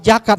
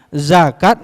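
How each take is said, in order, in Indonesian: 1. Kata ini diawali dengan bunyi 'j'. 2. Kata ini diawali dengan bunyi 'z'.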